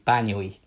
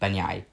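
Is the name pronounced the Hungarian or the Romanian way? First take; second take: Hungarian; Romanian. First: The last two vowels are said separately. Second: The last two vowels merge into one sound. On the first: "if you were to use Hungarian pronunciation, it would be Banyoi. The last two vowels would not be um, connected as one" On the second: "with the Romanian uh, pronunciation"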